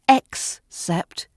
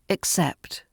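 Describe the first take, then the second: First: The stress is on the first syllable. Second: The stress is on the second syllable. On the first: The speaker calls it wrong. "It's not except" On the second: The speaker calls it right. "The stress is on the second syllable"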